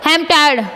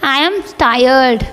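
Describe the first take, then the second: First: It is said lively, without sounding tired. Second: It is said wearily, sounding truly tired. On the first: The speaker calls it wrong. "आप ऐसे नहीं बोलोगे" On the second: The speaker calls it right. "मानो तुम सच में थके हुए हो"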